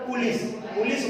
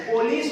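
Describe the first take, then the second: First: पुलिस said as "pulis" with an oo sound, the common mistake; पुलिस with a long u, mimicking the error; wrong pronunciation. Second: पुलिस said as "polis" with an o sound; पुलिस with a clear o in the first syllable; correct pronunciation. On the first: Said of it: "जो कि उच्चारण गलत है". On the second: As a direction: say पुलिस properly, po-lis, not pu. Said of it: "सही उच्चारण है तो पुलिस". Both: Shown as a demonstration.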